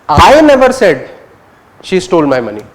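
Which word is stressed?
I. The word "I" carries the main stress. "You're focusing on I"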